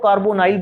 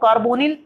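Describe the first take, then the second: First: The last vowel sounds like 'eye'. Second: The last vowel sounds like a short 'i'. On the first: "या तो कार्बोनाइल बोल देते हैं" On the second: "या तो कार्बोनिल"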